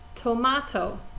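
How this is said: It is said in an Australian accent. "They pronounce it closer to tomato"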